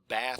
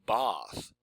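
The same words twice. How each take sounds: First: It has an American vowel. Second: It has a British vowel.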